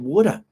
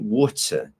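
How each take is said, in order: First: It is said in an Australian accent. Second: It is said in a British accent. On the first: "if you go to Australia and New Zealand... they would say water" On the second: "if you go to the United Kingdom... usually they say water"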